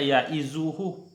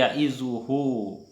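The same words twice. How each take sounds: First: The final vowel of hu is short. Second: The final vowel of hu is long. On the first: The speaker calls it wrong. "Bukan dibaca" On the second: The speaker calls it right. "harus dibaca mad, dibaca panjang"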